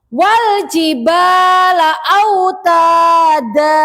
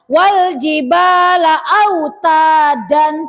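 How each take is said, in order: First: The last word ends in a long vowel. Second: The last word ends in an n sound. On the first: The speaker calls it right. "Dibacanya seperti mat asli aja" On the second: The speaker calls it wrong. "Tidak boleh dibaca"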